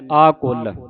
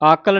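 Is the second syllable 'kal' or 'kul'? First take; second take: kul; kal. First: The second syllable has an u vowel. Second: The second syllable has an a vowel. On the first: The speaker calls it right. "ਕੱਕੇ ਔਂਕੜ ਉਚਾਰਨ ਹੋਣਾ ਹੈ" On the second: The speaker calls it wrong. "ਆਕਲ ਨਹੀਂ ਕਹਿ ਦੇਣਾ"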